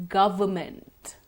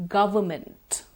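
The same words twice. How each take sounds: The two takes are said the same way.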